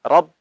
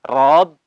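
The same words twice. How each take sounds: First: The final b stops short without bouncing. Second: The final b is swung with a bounce. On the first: The speaker calls it right. "tapi langsung Rob" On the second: The speaker calls it wrong. "Jangan Rob, jangan diayun"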